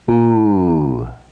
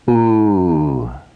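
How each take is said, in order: First: The vowel is long, held for two beats. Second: The same.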